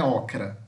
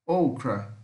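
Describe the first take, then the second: First: "ocra" with an open Portuguese "aw" vowel; wrong pronunciation. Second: "Okra" with a long "oh", stressed and falling; careful corrected take of "Okra", first vowel closed; correct English O. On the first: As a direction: show the mistake, "ocra" starting on an open O. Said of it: "Não é ocra". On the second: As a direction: model "Okra" starting like English "oh". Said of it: "O O em inglês é O". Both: Shown as a demonstration.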